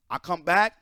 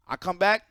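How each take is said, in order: Both takes have the same delivery.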